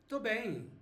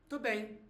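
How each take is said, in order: The two takes are said the same way.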